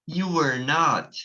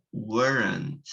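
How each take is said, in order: First: You were not slowly, not kept separate; full form. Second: Weren't as one word; contracted form. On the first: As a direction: keep not as its own word. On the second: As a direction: join were not into weren't. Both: Shown as a demonstration. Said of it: "a gente fala".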